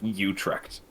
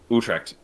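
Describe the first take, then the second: First: The name is pronounced with exaggerated, overdone articulation. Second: The name is pronounced plainly, without overdone articulation. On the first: The speaker calls it wrong. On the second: The speaker calls it right.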